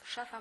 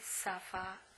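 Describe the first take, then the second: First: The word begins with a sh sound. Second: The word begins with an s sound. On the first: The speaker calls it right. "zamiast szafa" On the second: The speaker calls it wrong. "mówi safa"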